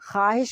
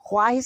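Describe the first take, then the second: First: No 'w' sound follows the 'kh' sound. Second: A 'w' sound follows the 'kh' sound. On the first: The speaker calls it right. "ख्वाहिश बोलते हैं" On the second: The speaker calls it wrong. "ख्वाहिश नहीं बोलते"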